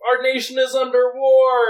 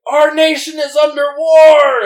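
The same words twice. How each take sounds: First: High, loud mock rant; imitating a yell. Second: Loud, high mock yell of a street ranter; imitating a screaming man. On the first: Retelling what the man first yelled, as a mock yell. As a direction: shout it like the man on the corner. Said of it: "he was yelling and screaming". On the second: Narrator imitating a ranting man screaming at passing cars. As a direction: bellow it like a crazed man at traffic. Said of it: "screaming, like".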